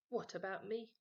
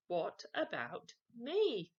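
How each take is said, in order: First: Said in the usual way. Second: Louder, slow, drawn-out whine; insistent demand. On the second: Acted. Henry demanding a chocolate again, louder and slow. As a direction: drag it out, pushy.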